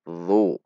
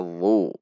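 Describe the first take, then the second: The two takes are said the same way.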